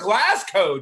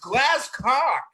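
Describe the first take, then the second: First: The second syllable sounds like 'go'. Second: The second syllable sounds like 'cock'. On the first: The speaker calls it wrong. "it's not Glasgow" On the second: The speaker calls it right. "It's glass cock"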